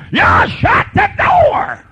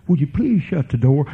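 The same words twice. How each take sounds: First: Slow, high, shouted command; angry yell. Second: Gently asking, a courteous please; polite request. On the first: Parent yelling at child to shut the door. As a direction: bark it like a fed-up parent. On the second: Parent asking child politely to shut the door. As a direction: ask it kindly, no edge. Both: Shown as a demonstration. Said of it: "You don't have to talk like that".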